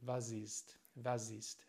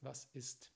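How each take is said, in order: First: The final s is a voiced, buzzing sound. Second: The final s is a voiceless, hissing sound. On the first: The speaker calls it wrong. "viele spanische Muttersprachler oder Latinos sagen hier s" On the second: The speaker calls it right. "aber es ist"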